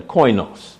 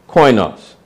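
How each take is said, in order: First: Koinos as KOY-nos, stress on the first syllable; Greek word koinos. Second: Koinos again as KOY-nos, stress on the first syllable; Greek word repeated. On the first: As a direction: say koinos slowly, like a Greek term. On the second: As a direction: repeat Koinos clearly for the class. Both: Shown as a demonstration. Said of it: "same word in the Greek".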